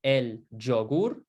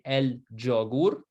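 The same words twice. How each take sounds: Both takes have the same delivery.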